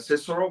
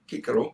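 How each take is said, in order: First: The name begins with a soft s sound. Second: The name begins with a hard k sound.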